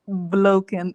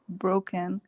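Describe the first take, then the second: First: The word is said with an L sound. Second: The word is said with an R sound.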